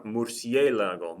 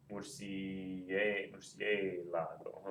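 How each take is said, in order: First: Murciélago with a louder, stretched CIÉ; slow Murciélago, stress on the CIÉ; stressed syllable. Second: Murciélago very slow and soft, broken up; murciélago slowly spelled out by syllables, under the voice. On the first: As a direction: punch the E in Murciélago. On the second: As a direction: sound out murciélago quietly, stretching the CIÉ. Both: Shown as a demonstration. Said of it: "the stress is over that E".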